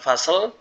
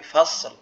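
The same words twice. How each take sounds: First: The final s and l are not both clear. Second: The s flows, then the l is clear. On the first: The speaker calls it wrong. "Bukan fasl" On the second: The speaker calls it right. "tapi fasl, lamnya juga jelas, shotnya juga jelas"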